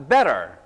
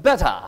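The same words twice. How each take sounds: First: American "Better", flapped t; American accent. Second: British "better", crisp t, no r; British pronunciation of "better"; British accent. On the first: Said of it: "오른손은 제가". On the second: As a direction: say "better" as "betta", British style. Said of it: "왼손은". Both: Shown as a demonstration.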